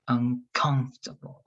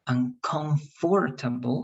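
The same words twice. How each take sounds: First: The stress falls on the syllable com. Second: The stress falls on the syllable for. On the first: The speaker calls it right. "the stress should be in the co" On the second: The speaker calls it wrong. "it's going to be incorrect in terms of the stress"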